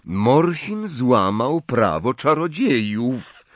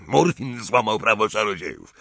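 First: Slow, stern pronouncement; drawn-out official severity. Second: Quick mocking echo of a charge; sneering repeat in a character voice; mocking imitation. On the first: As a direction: state the charge gravely and deliberately. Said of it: "powiedział surowo Ogden". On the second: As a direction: parrot it back with scorn. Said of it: "przedrzeźniając go". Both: A narrator's reading.

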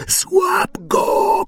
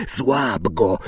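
First: Very high screaming command; shrieking order. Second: First call to Quirrell; urgent order. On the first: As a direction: scream it at Quirrell. (przenikliwy, wysoki wrzask) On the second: (cichy, naglący rozkaz) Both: A narrator's reading. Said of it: "krzyknął Voldemort".

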